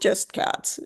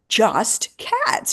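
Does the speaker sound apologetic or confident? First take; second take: apologetic; confident. First: It sounds hesitant and apologetic, downplaying itself. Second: It sounds firm and proud, with strong emphasis. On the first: Being only for cats is a limitation. "in the past I would be, eh, I'm just cats" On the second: Being only for cats is a strength. "Now I'm like, no, we really are just cats"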